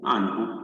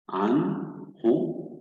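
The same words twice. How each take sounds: First: Said in the usual way. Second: "عن هو" split in two, with a short gap after عن; syllable by syllable. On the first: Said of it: "سنعيد قراءة الكلمة بشكل كامل". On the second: Shown as a demonstration. Teacher reads the word in syllables for learners, split apart. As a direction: sound out "عن", pause, then "هو". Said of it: "بهذه المقاطع".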